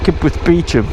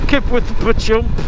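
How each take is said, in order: First: The last word begins with a 'bee' sound. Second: The last word begins with a 'bah' sound. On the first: This is how it is properly said. The speaker calls it right. "the correct pronunciation is Beecham" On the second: This is how it is said on the radio. The speaker calls it wrong. "they'll say uh"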